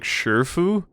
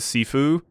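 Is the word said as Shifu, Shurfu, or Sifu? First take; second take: Shurfu; Sifu. First: The first vowel is an r-coloured 'ur' sound. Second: The word begins with a plain s sound. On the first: A character says it this odd way. "Hong weirdly says like Shurfu" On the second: Commenters suggested this pronunciation. "it might be pronounced like uh, sci- uh, Sifu"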